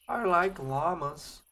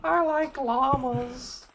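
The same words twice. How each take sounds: First: It is said in his normal voice. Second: It is said in a Carl Wheezer voice.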